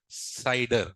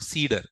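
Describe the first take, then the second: First: The first vowel sounds like 'sigh'. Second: The first vowel sounds like 'see'. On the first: The speaker calls it right. "I pronounce it as CIDR. It is a professional way" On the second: The speaker calls it wrong. "So don't call it a CEDAR"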